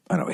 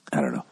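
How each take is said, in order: First: Said in the usual way. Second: Dropped low, near-whispered; quiet trailing off. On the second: Real, not acted. Trailing off to himself after the rant, low and whispered. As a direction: let it fall away under the breath.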